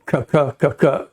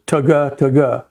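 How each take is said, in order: First: Single cut feed call. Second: Voiced "ta-ga, ta-ga" duck call clucks; double cut feed call. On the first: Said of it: "on a single cut". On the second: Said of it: "the way you do a double cut is". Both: Shown as a demonstration.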